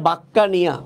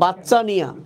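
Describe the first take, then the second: First: The middle consonant is a hard k sound. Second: The middle consonant is a ch sound. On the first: "উচ্চারণ হয় বাক্কা নিয়া" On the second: "তুমি যদি এটাকে এভাবে পড়ো যে বাচ্চা নিয়া"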